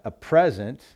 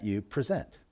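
First: "present" as a gift, PREZ-ent; stress on first syllable. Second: "present" as an action, pre-ZENT; stress on second syllable. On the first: Preacher explaining the noun, "present" stressed on its first syllable. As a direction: punch the opening syllable of "present". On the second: Preacher explaining the verb, "present" stressed on its last syllable. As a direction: put the weight on the end of "present". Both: Shown as a demonstration. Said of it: "just a different emphasis there".

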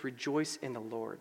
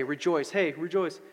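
First: "Rejoice in the Lord" said low and soft; measured scripture quote. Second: Light, quick toss-off of rejoice; casual cheer. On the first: Preacher quoting what Paul really says, measured and low. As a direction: say "Rejoice in the Lord" softly, as one whole phrase. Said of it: "He says". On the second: Preacher mimicking what Paul doesn't just say, casual cheer. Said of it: "He doesn't j-, just say". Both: Retold or imitated.

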